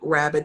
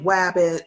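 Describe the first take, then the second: First: The word begins with an R sound. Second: The word begins with a W sound. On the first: The speaker calls it right. "instead of saying rabbit" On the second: The speaker calls it wrong. "substituting like W for your R"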